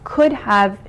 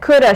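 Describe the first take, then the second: First: Both words are said fully and separately. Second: The words are reduced and run together. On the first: It is the proper form. "the long form" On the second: It is slang. "slang words that are shortened forms"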